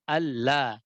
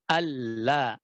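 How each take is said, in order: Both takes have the same delivery.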